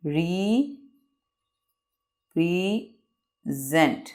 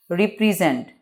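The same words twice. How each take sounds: First: represent with long gaps, re, pre, sent; very slow, softer dictation of represent in three parts; long pause after each syllable of represent; broken into syllables. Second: Said in the usual way. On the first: Shown as a demonstration. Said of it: "word को रुक रुक के बयान करना". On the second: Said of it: "इसको pronunciate कर लेते हैं".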